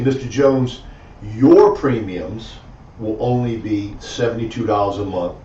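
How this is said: The word 'your' is stressed.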